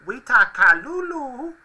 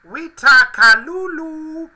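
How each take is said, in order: First: High Furby voice. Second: High, slow, squeaky toy voice; high Furby voice. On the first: Reading out made-up Furby phrases. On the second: Furby phrase read out again. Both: Pretend.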